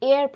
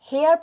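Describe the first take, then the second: First: The word starts with a vowel, no h. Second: The word starts with an audible h sound. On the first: The speaker calls it right. "এয়ার pronounce হয়" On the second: The speaker calls it wrong. "এই ওয়ার্ডটা হেয়ার pronounce হয় না"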